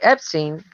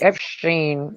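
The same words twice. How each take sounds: First: The middle consonant is a plain 's' sound. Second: The middle consonant is a mushy 'sh' sound. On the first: "it looks like Epstein, but doesn't sound that way" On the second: "like you're saying Epstein with a bunch of peanut butter in your mouth"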